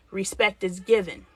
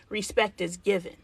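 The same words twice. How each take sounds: The two takes are said the same way.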